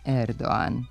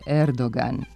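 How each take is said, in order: First: No g sound is pronounced mid-word. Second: A clear g sound is pronounced mid-word. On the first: The speaker calls it wrong. "a ne Erdoğan" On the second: The speaker calls it right. "Turski predsjednik je Erdoğan"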